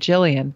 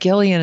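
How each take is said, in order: First: The name begins with a soft J sound. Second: The name begins with a hard G sound. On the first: This is the expected, ordinary way to say the name. The speaker calls it right. "instead of Jillian" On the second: This is how the author herself says the name. The speaker calls it wrong. "she pronounces it Gillian"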